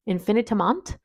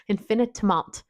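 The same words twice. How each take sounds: First: Attempted French pronunciation of the name; French accent. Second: Said in the usual way. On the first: Shown as a demonstration. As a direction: try saying it with a French accent. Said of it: "Maybe I will try to say it in French". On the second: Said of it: "not even gonna try to say it in French".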